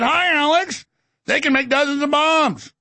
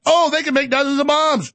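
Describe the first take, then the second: First: High-pitched mock bunny voice; Easter Bunny. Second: Higher, put-on wide-eyed discovery; mock amazement. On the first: Easter bunny tells Alex about bombs, mock cute. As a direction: chirp it high like a cartoon bunny. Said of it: "little Easter bunny pop". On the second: Reacting to the Easter bunny's news, mock amazed. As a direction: play the gullible listener, pitched up. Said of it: "And I went".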